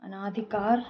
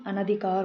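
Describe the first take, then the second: First: अनाधिकार with long aa after n; long second vowel. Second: Said in the usual way. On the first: Shown as a demonstration. Teacher showing a common error, long second vowel. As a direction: stretch the ना in अनाधिकार. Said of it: "नहीं". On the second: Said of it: "होता है".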